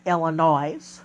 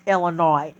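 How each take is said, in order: First: "Illinois" ending in "noise"; Illinois with sounded s. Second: "Illinois" ending in "noy", no s; Illinois with silent s. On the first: Showing how not to say the state, "Illinois" with a voiced final s. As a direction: say "Illinois" with a z at the end. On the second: Correcting how the state is said, "Illinois" with a silent s. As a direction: say "Illinois" leaving the last letter silent. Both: Shown as a demonstration. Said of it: "not Illinois".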